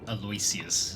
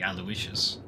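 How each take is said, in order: First: The name is pronounced as it is spelled. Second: The name is pronounced unlike its spelling. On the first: The speaker calls it wrong. "People were pronouncing it the way it's spelt" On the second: The speaker calls it right. "which is supposed to be"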